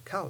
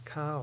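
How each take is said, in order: First: "cow" with a short vowel, falling tone. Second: "cow" with a long drawn-out vowel. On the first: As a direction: keep the vowel in "cow" brief. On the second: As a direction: stretch "cow" out as it falls. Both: Shown as a demonstration. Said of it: "only difference between those two is vowel length".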